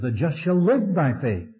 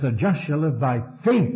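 First: The stress falls on the word live. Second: The stress falls on the word faith. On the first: "There he put the emphasis on the life" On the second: "he puts the emphasis on faith"

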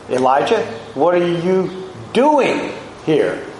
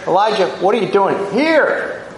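First: The stress is on the word doing. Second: The stress is on the word here. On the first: The activity itself is being questioned. "engaging in self-pity" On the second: The place itself is significant. "That was Mount Horeb, where the law had been instituted"

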